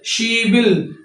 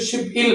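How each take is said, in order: First: One linked word, with a b sound before il. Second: Two separate syllables, with a p sound before il. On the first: The speaker calls it right. "ये बी of slip होके इस ई की जगह पे चला जाएगा" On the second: The speaker calls it wrong. "ये इसको वैसे पढ़ेंगे तो शिप इल बनता है"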